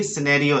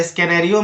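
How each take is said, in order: First: सिनेरियो with no k; c dropped in सिनेरियो; correct silent C. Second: स्कैनेरियो with a k sound; wrong pronunciation. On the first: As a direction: say सिनेरियो as si-nario. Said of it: "यहां पर भी". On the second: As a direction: say स्कैनेरियो as ske-nario. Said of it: "मत पढ़ना". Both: Shown as a demonstration.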